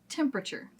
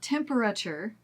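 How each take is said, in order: First: A middle syllable is dropped. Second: Every syllable is fully said. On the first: The speaker calls it right. "but temperature" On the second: The speaker calls it wrong. "And not temperature"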